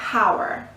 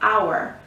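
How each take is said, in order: First: The word begins with an H sound. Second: The word begins with a vowel sound. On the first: The speaker calls it wrong. "if we pronounced the letter H and if it wasn't mute, it would become" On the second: The speaker calls it right. "We don't pronounce the letter H"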